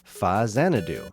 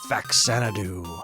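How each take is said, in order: First: The name is 'fa' followed by 'Xanadu'. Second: The name begins with the syllable 'fax'. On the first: The speaker calls it right. "Put those words Famicom and Xanadu together and you get the name" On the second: The speaker calls it wrong. "I'm pretty sure it's not pronounced like I always thought it was"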